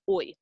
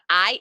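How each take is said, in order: First: The vowel sounds like 'oy'. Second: The vowel sounds like 'eye'. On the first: The speaker calls it right. "it's oi" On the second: The speaker calls it wrong. "it's not I"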